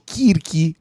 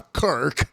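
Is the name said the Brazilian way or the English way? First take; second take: Brazilian; English. First: The name is said with Brazilian Portuguese pronunciation. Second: The name is said with English pronunciation. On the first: "que seria um negócio mais abrasileirado" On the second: "ele faz questão da pronúncia Kirk"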